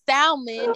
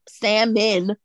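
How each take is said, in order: First: The first syllable sounds like sal, with L. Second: The first syllable sounds like sam, without L. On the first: "it's a sal, like the name Sal" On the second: "I'm thinking S-A-M salmon"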